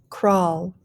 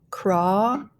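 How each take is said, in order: First: Said in the usual way. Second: "crawl" stretched as craah, then a separate l; slow blended "crawl"; blending. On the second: Shown as a demonstration. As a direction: draw out the vowel of "crawl" with rising tune. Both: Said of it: "start blending".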